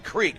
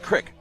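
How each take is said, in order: First: The vowel is long, like in 'seek'. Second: The vowel is short, like in 'sick'. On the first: The speaker is from outside the area. "If you're an outsider, you say Creek" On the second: The speaker is from the local area. "only if you are from Johnson Crick you say it"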